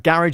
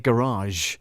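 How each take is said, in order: First: It is said in an ordinary British accent. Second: It is said in a posh British accent. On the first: "is what we call it here in the U K" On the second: "if you're posh"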